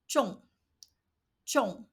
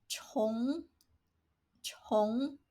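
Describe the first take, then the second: First: 重 said as zhòng, falling fourth tone; 重 as in heavy, with a firm falling tone; first reading of 重. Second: 重 said as chóng, rising second tone; 重 as in repeat, with the pitch rising; second reading of 重. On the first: Teacher showing learners the zhòng reading, falling. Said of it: "has two different pronunciations". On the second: Teacher showing learners the chóng reading, rising. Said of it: "and another is". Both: Shown as a demonstration.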